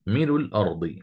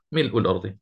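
First: ملء الأرض said as مِلُ لْأرض, the hamza dropped and its vowel moved to the lam; naql reading. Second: ملء الأرض said with the hamza kept clear after ملء; full hamza reading. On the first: Teacher shows students the Ibn Wardan reading. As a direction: glide ملء into الأرض with no glottal stop. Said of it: "نقلنا الحركة لللام الساكنة". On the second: Teacher shows students the majority reading. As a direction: stop crisply on the hamza in ملء. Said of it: "قراءة الجمهور". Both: Shown as a demonstration.

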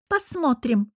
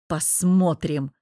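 First: Higher-pitched snappish echo; snapped retort. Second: Slow, dull, restrained growl; muffled growl. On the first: Anya echoes Bogdan's word back, snapping. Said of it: "огрызнулась она". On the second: Man answers Anya's prediction, dull growl. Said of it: "прорычал глухо". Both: A narrator's reading.

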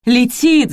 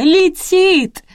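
First: High, loud cry of alarm; alarmed shout; yelling. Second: Very high, loud, stretched-out wail; piercing long cry, falling at the end; shrieking yell. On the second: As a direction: scream the warning at the top of your pitch. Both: A narrator's reading. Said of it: "завопила Рина".

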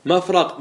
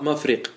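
First: مفرق said "mafraq", with an a; fatha form. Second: مفرق said "mafriq", with an i; kasra form. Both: Shown as a demonstration. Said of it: "ما ورد بالوجهين".

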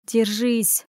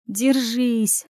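First: Said in the usual way. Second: A second, changed-timbre "Держись!" said inwardly; self-command. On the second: Acted. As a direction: repeat "Держись!" in a different, steadier voice. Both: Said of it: "приказала себе беглянка".

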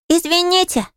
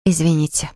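First: Put-on very high little-boy voice; cheerful squeal. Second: Small sheepish apology; embarrassed. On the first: Small boy bumping into Polly, cheerful squeal. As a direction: pipe up gleefully like a small child. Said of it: "весело заверещал он". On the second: Flora apologising for keeping Polly waiting, embarrassed. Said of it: "смущённо сказала она". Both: A narrator's reading.

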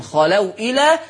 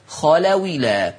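First: Said in the usual way. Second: "خلولا" linked as khalawilā, hamza dropped; slow "خلولا", the waw carrying the i; نقل الهمزة. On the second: Shown as a demonstration. (نطق "خلولا" بواو مكسورة دون همزة) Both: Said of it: "خلو إلى تنطق خلولا".

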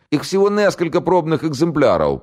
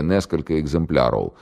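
First: Put-on much higher scared voice with a southern accent; southern Russian accent. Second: Said in the usual way. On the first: (южнорусский говор, торопливо) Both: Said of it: "по-южному выговаривая".

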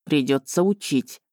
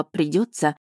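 First: Low, weary resigned words; heavy sigh. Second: Said in the usual way. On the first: A narrator's reading. Dragon resigns himself to teaching her, with a heavy sigh. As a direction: say it like a burden you can't escape. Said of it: "тяжко вздохнул он". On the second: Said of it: "От этого вынужденного «придётся»".

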